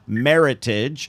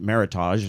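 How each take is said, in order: First: It is said rhyming with heritage. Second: It is said without rhyming with heritage. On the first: The speaker calls it right. "meritage rhymes with heritage" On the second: The speaker calls it wrong. "which I always pronounced Meritage until"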